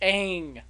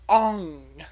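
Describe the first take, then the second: First: The vowel sounds like the one in 'bang'. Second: The vowel sounds like the one in 'long'. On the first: The speaker calls it right. "It is Aang" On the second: The speaker calls it wrong. "not Ong"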